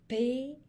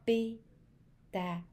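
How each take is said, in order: First: "Pétale" said in one quick burst, louder and higher, rising at the end; word said whole. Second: "Pétale" said slowly, pulled apart into pé-ta-le; split into syllables. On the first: Teacher to children, "Pétale" said whole and bright. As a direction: call out "Pétale" in one go as the arm comes up. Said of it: "prenez votre bras, on le met bien droit". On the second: Teacher to children, counting syllables in "Pétale" slowly. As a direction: beat out each syllable of "Pétale" with the arm. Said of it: "combien on entend de petits mots?". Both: Shown as a demonstration.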